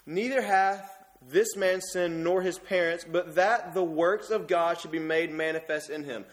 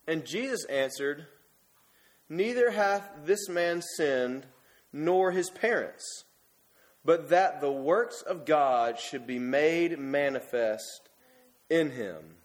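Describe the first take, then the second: First: Slow, deliberate reading of holy words; solemn scripture reading. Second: Slow, measured scripture reading. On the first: Shown as a demonstration. Preacher rereads the verse for the church, deliberate and solemn. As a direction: let the words of Jesus land, unhurried. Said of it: "Let's listen". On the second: Acted. Preacher reads the words of Jesus to the congregation, slow and solemn. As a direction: read each word of Jesus slowly and solemnly.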